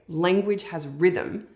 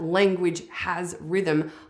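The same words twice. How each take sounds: First: No extra stress falls on has. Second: Extra stress falls on the word has.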